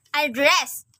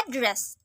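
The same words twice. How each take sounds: First: AdDRESS, second syllable stressed; verb stress. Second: ADdress, first syllable stressed; noun stress. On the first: Teacher showing learners the verb Address, end-stressed. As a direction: say Address with the weight on its last syllable. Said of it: "a verb". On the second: Teacher showing learners the noun Address, front-stressed. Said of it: "a place where a person". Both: Shown as a demonstration.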